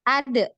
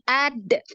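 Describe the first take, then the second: First: The final d is released with a bounce. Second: The final d is held and stopped. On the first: The speaker calls it right. "Tapi langsung de" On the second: The speaker calls it wrong. "jangan ditahan seperti itu"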